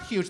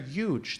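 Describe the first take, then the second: First: The word begins with an h sound. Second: The word begins without an h sound. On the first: "They're not huge" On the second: "There's no H on it"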